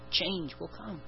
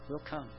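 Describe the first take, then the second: First: Change will come, pressed out strongly; firm declaration. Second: "Will come" repeated much softer; a hushed echo of "Will come". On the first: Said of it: "Fruit will come". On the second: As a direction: let "Will come" fall away quietly. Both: Shown as a demonstration.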